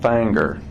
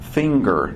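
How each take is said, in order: First: The word is pronounced with a rural hillbilly accent. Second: The word is pronounced carefully in a standard way. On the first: The speaker calls it wrong. "stop talking like a hillbilly" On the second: The speaker calls it right. "she enunciates"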